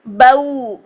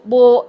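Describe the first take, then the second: First: The vowel glides from a into rounded w. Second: The vowel stays a single steady o sound. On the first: The speaker calls it right. "बऊ पूरा मुंह मोड़ के" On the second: The speaker calls it wrong. "अगर हम मोड़ पैदा नहीं करते तो वो आवाज क्या बनेगी? बो बो"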